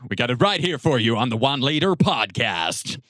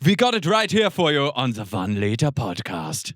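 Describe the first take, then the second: First: It is spoken in an American accent. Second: It is spoken in a non-American accent. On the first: The speaker calls it wrong. "we can't do American accents" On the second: The speaker calls it right. "It has to be"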